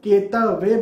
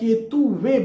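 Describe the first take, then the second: First: No 'u' vowel is heard after the 't'. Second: A 'u' vowel is heard after the 't'. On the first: The speaker calls it wrong. "सिर्फ केतवे बोले या केतुवे बोले" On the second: The speaker calls it right. "यहां पर मैं आपसे कहूंगा केतु वे बोले"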